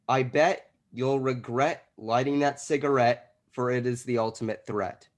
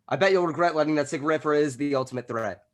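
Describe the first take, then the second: First: It is said at a normal pace. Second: It is said very fast.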